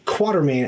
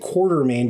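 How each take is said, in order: First: No R sound is heard before the T. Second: An R sound is heard before the T. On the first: The speaker calls it right. "there's no R before the T" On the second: The speaker calls it wrong. "Everyone wants to say it Quartermain"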